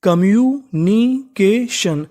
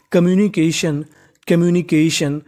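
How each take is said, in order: First: communication stretched out slowly, syllable by syllable; teacher drawing out communication at a crawl; slow spelled-out demo. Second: Said in the usual way. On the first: Shown as a demonstration. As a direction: model communication very slowly for learners. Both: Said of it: "तो meaning बनी".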